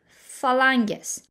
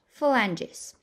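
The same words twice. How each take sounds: First: It is pronounced in a Latin style. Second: It is pronounced in an English style. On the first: "Listen to how I'm pronouncing the Latin words" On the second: "or in English phalanges"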